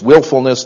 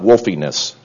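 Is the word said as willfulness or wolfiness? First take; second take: willfulness; wolfiness. First: The word is said as willfulness. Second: The word is said as wolfiness. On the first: The speaker calls it right. "it was willfulness" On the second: The speaker calls it wrong. "not wolfiness"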